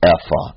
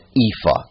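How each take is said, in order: First: It is pronounced in the original Hebrew way. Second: It is pronounced in an anglicized English way. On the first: "how you would pronounce it in Hebrew" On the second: "anglicizing it and pronouncing it ephah"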